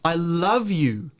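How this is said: The stress is on the word love. It is love, not hate or regret. "The love is now stressed"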